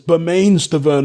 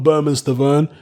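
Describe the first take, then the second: First: The first name ends with a 'main' sound. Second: The first name ends with a 'man' sound. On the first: It follows the spelling of the name. The speaker calls it wrong. "it's spelt Bermain" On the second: It follows how the man himself says it. The speaker calls it right. "Berman Stavern himself says it's pronounced Berman"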